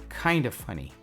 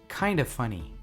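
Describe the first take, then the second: Both takes have the same delivery.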